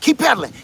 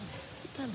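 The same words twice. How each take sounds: First: The voice is strong and full. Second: The voice is faint and fading. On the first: The helper is still close behind. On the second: The helper has fallen far behind.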